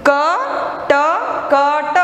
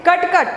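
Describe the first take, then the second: First: "कटकट" very slowly, each letter sound held; slow reading. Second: "कटकट" short and joined as one word; all together. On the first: Teacher allows pupils slow reading, "कटकट" letter by letter. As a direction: stretch "कटकट" into four separate sounds. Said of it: "आप slowly पढ़ सकते हो". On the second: Teacher shows full-word reading, "कटकट" all together. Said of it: "तो पूरा एक साथ में". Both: Shown as a demonstration.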